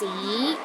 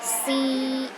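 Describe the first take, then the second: First: The pitch rises from low to high. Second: The pitch stays high and steady. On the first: "start with a low pitch and rises to a high pitch" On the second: "The first tone is high and steady"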